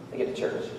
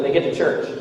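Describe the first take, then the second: First: They get to church whispered, much softer; hushed, dramatic whisper of the repeated phrase. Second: Said in the usual way. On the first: Shown as a demonstration. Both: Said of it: "repeated quieter".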